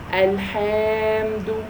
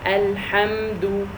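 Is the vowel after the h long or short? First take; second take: long; short. First: The vowel after the h is drawn out long. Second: The vowel after the h is kept short. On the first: There is an extra long-vowel letter after it. The speaker calls it wrong. "If I said alhamdul, alhamdu, so that means there is an alif mad after the ha" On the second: There is no extra long-vowel letter after it. The speaker calls it right. "so it should only be ha"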